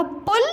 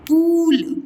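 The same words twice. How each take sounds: First: पुल with a short u, high pitch. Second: पूल with a long, drawn-out oo falling at the end. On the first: Teacher contrasts two words for child, short-u पुल. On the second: Teacher contrasts two words for child, long-u पूल. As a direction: stretch the vowel in पूल. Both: Shown as a demonstration. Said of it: "बस एक जगह मैंने समझा दिया".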